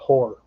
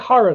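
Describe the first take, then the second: First: The ending sounds like the word horror. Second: The ending has an open 'ah' vowel, like hara. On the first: "it just comes out horror" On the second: "I say Hara that way"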